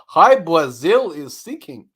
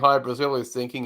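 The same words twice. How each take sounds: First: The r in Brazil sounds like a W. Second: The r in Brazil is a normal R. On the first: "he can't say his R's, so he says them as W's" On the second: "instead of saying"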